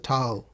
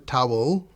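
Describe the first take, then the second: First: Towel is said with a British accent. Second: Towel is said with a South Indian accent. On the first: This is how the professor wanted it said. The speaker calls it right. "it's a towel" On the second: This is how the students said it. The speaker calls it wrong. "it's not a towel"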